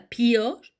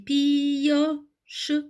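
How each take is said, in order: First: The i sound is said only once. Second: The i sound is said twice, pi-yoche. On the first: The speaker calls it wrong. "Je dis pas pioche" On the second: The speaker calls it right. "je dis pioche"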